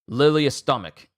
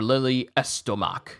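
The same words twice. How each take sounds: First: The name is pronounced in a plain way. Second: The name is pronounced in a fancy way.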